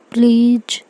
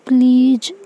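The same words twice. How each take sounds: First: A gentle first please before the stronger one; cute pleading. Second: "प्लीज" pitched higher with a rising, begging lilt; second please sweeter and higher, lifting at the end; cute pleading. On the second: Sick girl begging her carer, higher rising please. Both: Acted. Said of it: "ऐसे cute सा face बनाती है".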